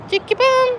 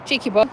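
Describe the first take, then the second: First: Cheeky bum! jumps up high and bright; squeaky pet talk. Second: Said in the usual way. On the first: Real, not acted. Owner teasing her pet, calling Cheeky bum! up high.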